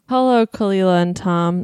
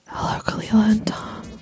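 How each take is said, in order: First: It is said in a normal voice. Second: It is said in a whisper.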